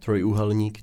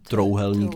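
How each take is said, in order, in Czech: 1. Prostřední slabika se říká celá, se zvukem j. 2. Prostřední slabika je zredukovaná, bez zvuku j.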